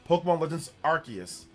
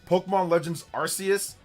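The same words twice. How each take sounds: No difference in how they are said.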